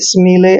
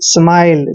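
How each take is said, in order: First: The vowel is a long 'ee' sound. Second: The vowel is an 'eye' sound. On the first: The speaker calls it wrong. "ऐसे नहीं पढ़ना है" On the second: The speaker calls it right. "I L E का उच्चारण आइल करेंगे"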